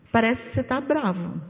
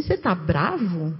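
First: Mild, even rephrasing as an observation; softer observation. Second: Calm, slow, lower asking of the question; gentle question. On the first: Speaker models rephrasing to an upset spouse, soft and mild. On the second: Speaker models asking an upset spouse gently, slow and calm. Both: Shown as a demonstration. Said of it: "fala assim".

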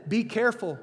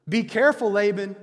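First: Said in the usual way. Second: Louder warning. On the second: Retold or imitated. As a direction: repeat it louder, as a firm warning. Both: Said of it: "It's a warning".

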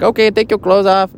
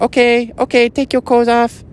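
First: Higher-pitched masseuse in a badly faked Japanese accent; botched Japanese accent. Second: Much higher, put-on Japanese-Mexican masseuse voice; mock Japanese-Mexican accent. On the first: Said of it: "that was not even the right accent". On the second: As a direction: imitate a masseuse in a high, muddled Japanese accent. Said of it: "Yeah, that's better".

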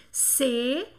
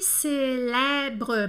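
First: Célèbre split into slow, separate syllables; teacher sounding out célèbre piece by piece. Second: Said in the usual way. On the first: Shown as a demonstration. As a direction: dictate "célèbre" in three parts, pausing between each. Teacher breaks word into syllables.

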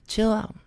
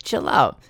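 First: Chill out lifted high and softened; high soft chill out. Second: Said in the usual way. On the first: Shown as a demonstration. Urging a rude person again, higher and softer. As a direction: float it up gently.

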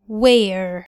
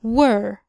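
First: Where with the mouth a bit open, like a smile. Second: Were with lips rounded a little. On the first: Teacher contrasting where with were. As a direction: say where as if smiling slightly. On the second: Teacher contrasting were with where. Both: Shown as a demonstration. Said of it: "تعالوا نقارن ما بينهم".

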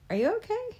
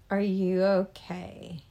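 First: Stunned high-pitched are you okay; high, incredulous. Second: Said in the usual way. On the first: Shown as a demonstration. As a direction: voice jumps high in surprise. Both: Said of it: "genuine surprise".

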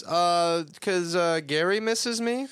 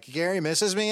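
First: High, loud mock nervous stammer; nervous excuse. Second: High mock nervous quote; quoting nervous excuse. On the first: Nervous excuse voiced in recap. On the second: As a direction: replay the lame excuse, high. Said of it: "it's like".

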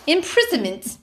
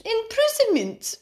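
First: "Imprisonment" said higher in a mock English accent; over-pronounce "Imprisonment" like a Brit after wine; tipsy English accent. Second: Put-on "Imprisonment" drawn out slow and much higher, English accent; playful English accent. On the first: Teasing friends after wine, mock English accent. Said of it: "Don't make me speak in my English accent". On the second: Egged on by friend, slow high English accent. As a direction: stretch "Imprisonment" like a posh Brit, giggly. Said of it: "how my accent might twist".

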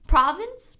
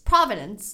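First: "Province" in two syllables, rising like a question; tentative, questioning "Province"; unsure pronunciation. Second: "Providence" with an extra middle syllable, falling; second attempt, "Providence" with falling tune; alternative pronunciation. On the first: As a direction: try out "Province" higher, as if checking it. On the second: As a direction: try "Providence" as three syllables, settling down at the end. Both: Real, not acted. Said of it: "Did I say that word correctly?".

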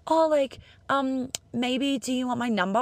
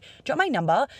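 First: High, half-hearted, hedging ask; timid mock ask for a number; hesitant ask. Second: Direct, confident ask; just ask it outright; plain confident question; straight shooting. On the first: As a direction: dangle the offer without committing. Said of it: "being half in, h-, half out". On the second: Retold or imitated. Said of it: "straight shooting".

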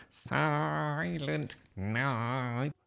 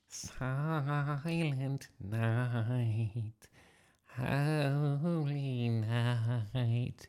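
First: Sung, slow, higher, forceful carol; bellowed singing. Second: Slow unaccompanied carol singing. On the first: Nick competing with the howling dog, bellowed singing. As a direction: belt out the long sung notes stubbornly. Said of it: "Nick bellowed louder". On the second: Nick's big moment in the nativity play, singing solemnly. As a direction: draw out each sung note, higher than speech. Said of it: "he sang". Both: A narrator's reading.

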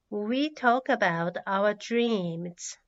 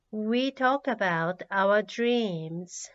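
Both takes have the same delivery.

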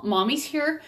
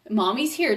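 First: Put-on higher, soothing reassurance to a hurt child. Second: Settled, even reassurance, back in her own pitch; calm repeat. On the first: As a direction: lift the voice gently to comfort him. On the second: Retold or imitated. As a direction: say it steady and grounded. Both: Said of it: "I was trying to talk in his ear".

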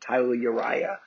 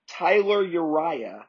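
First: Boston accent, dropping the R in "Tyler". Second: Said in the usual way. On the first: Shown as a demonstration. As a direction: say "Tyler Uriah" like a Bostonian, "Tyluh". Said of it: "imagine being said in a Boston accent".

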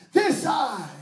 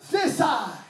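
No difference in how they are said.

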